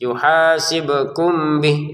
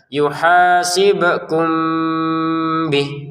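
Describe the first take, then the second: First: The m is closed clearly before the b. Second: The m is blurred, nasal, into the b. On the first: The speaker calls it wrong. "kan tidak ada samarnya. Itu salah" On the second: The speaker calls it right. "dibacanya dengan samar"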